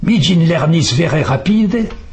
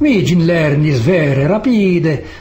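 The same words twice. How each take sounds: First: It is said with a French accent. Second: It is said with an Italian accent.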